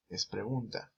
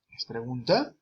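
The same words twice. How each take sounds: First: Said as a plain statement, no question tune; flat statement. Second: "¿Es pregunta?" with the end rising and "pregunta" drawn out; question tune. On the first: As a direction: state it flatly, like a fact. (como afirmación, "Es pregunta" sin entonación de pregunta) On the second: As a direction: lift the end of "pregunta" like asking. (con entonación de pregunta, subiendo al final de "pregunta") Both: Shown as a demonstration. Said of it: "hay que poner una entonación".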